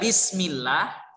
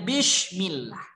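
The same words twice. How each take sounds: First: It is said with a plain s sound. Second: It is said with an sh sound. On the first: The speaker calls it right. "Sepatutnya adalah sin" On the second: The speaker calls it wrong. "tetapi dibaca dengan shim"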